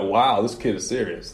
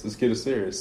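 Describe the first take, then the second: First: Said in the usual way. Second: Softer, dropped to himself; quieter repeat. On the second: Retold or imitated. Dad repeating to himself about his daughter, softer. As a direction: echo it under the breath. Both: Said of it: "so I'm like".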